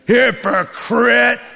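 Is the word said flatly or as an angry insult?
angry insult. It is said sharply, as an angry insult.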